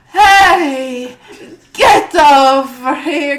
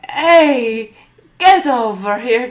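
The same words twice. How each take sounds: First: The call is shouted with strong force. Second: The call is said at a louder level. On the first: The speaker calls it right. "Maybe just a touch, like, with more force" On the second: The speaker calls it wrong. "He knew he had to say it louder"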